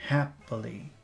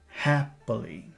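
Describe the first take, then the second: No difference in how they are said.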